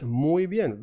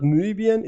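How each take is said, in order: First: Said in the usual way. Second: "muy" said with a fronted ü, as "müy"; stressed "muy" with an ü vowel; mispronounced muy. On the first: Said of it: "it's muy bien. Very simple". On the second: Shown as a demonstration. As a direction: wrongly say "muy" like "müy bien". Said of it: "It's not muy bien".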